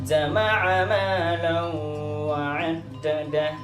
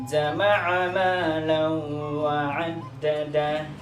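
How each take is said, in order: Both takes have the same delivery.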